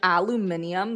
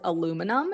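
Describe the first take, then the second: First: It is said the way Londoners say it. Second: It is said unlike the way Londoners say it.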